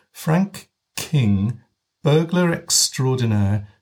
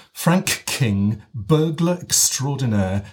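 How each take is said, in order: No difference in how they are said.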